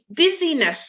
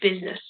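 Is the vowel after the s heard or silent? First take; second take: heard; silent. First: The vowel after the s is clearly heard. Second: The vowel after the s is silent. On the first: The speaker calls it wrong. "If you were to hear it, it would be busyness" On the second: The speaker calls it right. "you don't actually hear the I"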